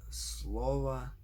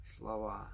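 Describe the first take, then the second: First: "slova" stressed on SLO, full o; SLO-va, drawn out on the first syllable. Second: "slova" stressed on final VA, reduced o; slo-VA, with a full final a; stress on last syllable. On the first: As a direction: hit SLO in "slova", weak final a. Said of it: "genitive singular". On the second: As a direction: pass quickly over slo, land on VA in "slova". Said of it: "and nominative plural". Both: Shown as a demonstration.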